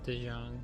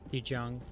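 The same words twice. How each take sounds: First: The consonant is a soft zh sound. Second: The consonant is a hard j sound. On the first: The speaker calls it wrong. "normal American pronouncing Chinese words thing" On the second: The speaker calls it right. "the proper J"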